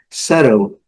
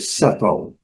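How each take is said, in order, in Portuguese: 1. O T do meio é um flap, como R ou D. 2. O T do meio é um som de T nítido. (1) "E no inglês americano, esse T ... flat T ... som de R ou D" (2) "No inglês britânico, a letra T ela é bem característica"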